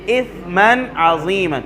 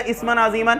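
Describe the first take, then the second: First: اسما with soft s, no whistle, slow; tongue tip at front teeth, gentle s in اسما; soft seen. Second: اسما with hissing whistling s; whistled s. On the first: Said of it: "نرمی سے". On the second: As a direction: sharpen the s in اسما. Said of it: "سیٹی کی آواز نکالیں گے". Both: Shown as a demonstration.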